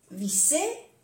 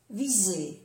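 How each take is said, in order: First: "visser" rising high, with an unvoiced s; double S. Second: "viser" falling, with a voiced z; soft Z. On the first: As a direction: lift "visser" with a hiss in the middle. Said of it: "una S o doble S". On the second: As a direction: say "viser" with a buzzing z. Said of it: "se pronuncia como una Z suave". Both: Shown as a demonstration.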